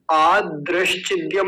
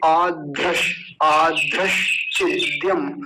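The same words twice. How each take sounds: First: आदृश्चिद्यम with plain unaspirated द after आ; mispronunciation demo. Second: आदृश्चिद्यम slow, first द breathed as ध; aspirated correct form. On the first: Teacher warning students, आदृश्चिद्यम with unaspirated d. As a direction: run आदृश्चिद्यम together with no breath on the first d. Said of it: "नहीं बोलेंगे". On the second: Teacher correcting students, आदृश्चिद्यम slow with aspirated dh. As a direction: draw out आदृश्चिद्यम with a puff on the first d. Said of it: "आदृश्चिद्यम नहीं बोलेंगे". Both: Shown as a demonstration.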